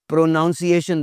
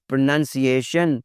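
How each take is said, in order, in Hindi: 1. दूसरा अक्षर noun जैसा सुनाई देता है। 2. दूसरा अक्षर nun जैसा सुनाई देता है।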